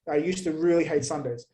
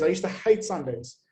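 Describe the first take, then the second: First: "really" carries the main weight; stress on REALLY. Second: "hate" carries the main weight; stress on HATE. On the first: Comic insisting on old dislike of Sundays, stress on "really". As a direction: lean on "really" to intensify it. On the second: Comic recalling old Sundays, stress on "hate". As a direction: lean on the word "hate". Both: Real, not acted. Repeats it with added intensifier.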